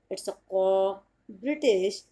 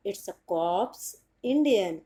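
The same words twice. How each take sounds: First: Very slow British "cop" with no r or s; British way, clipped "cop" said slowly; British pronunciation. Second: Very slow Indian "cops" with p and s sounded; careful Indian English "cops". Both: Shown as a demonstration. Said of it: "एक बार फिर से बता देती हूँ".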